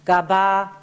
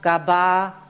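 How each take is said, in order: No difference in how they are said.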